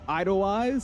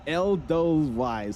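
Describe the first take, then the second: First: The first syllable sounds like 'eye'. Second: The first syllable sounds like 'eh'. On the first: The speaker calls it wrong. "It's not Idlewise" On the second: The speaker calls it right. "It's Edelweiss, something like that"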